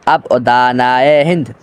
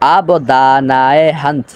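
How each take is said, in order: First: The last word has an 'i' vowel. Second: The last word has an 'a' vowel. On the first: The speaker calls it right. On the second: The speaker calls it wrong.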